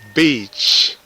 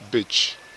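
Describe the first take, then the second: First: The vowel is long, said with spread lips. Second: The vowel is short, said without spread lips. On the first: The speaker calls it right. "B E A C H with a smile" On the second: The speaker calls it wrong. "Without a smile"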